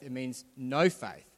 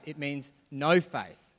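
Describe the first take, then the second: First: Slow, "no" set apart and held; stress on no again. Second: Slow, with "no" leaned on hard; stress on no. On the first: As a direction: press "no" with a falling close. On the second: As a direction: land the word "no" firmly and slowly. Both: Shown as a demonstration. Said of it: "Not small faith".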